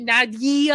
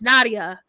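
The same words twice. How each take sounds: First: The name has an extra 'ee' vowel added. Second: The name has no extra 'ee' vowel added. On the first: Other people say her name this way. The speaker calls it wrong. "they added E" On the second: This is how her name is really said. The speaker calls it right. "I'm like, it's Nadia"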